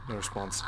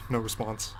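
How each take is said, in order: Both takes have the same delivery.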